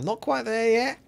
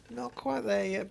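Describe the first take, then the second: First: High sing-song. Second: Said in the usual way. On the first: Shown as a demonstration. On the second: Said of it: "I'm not quite there yet".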